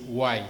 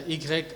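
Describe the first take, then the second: First: Y said the English way, "why"; Y sounded just like "why"; English letter name. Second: Y said the French way, "i grec"; Y in two French syllables, "i-grec"; French letter name. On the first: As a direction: give Y its English name, one syllable "wai". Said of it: "en anglais, c'est". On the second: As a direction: give Y its French name, "ee-grek". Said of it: "la lettre Y en anglais". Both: Shown as a demonstration.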